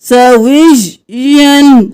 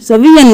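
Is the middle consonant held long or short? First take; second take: long; short. First: The middle y sound is doubled and held. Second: The middle y sound is single and short. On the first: The speaker calls it right. "विज और फिर यन" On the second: The speaker calls it wrong. "सवियन नहीं करना"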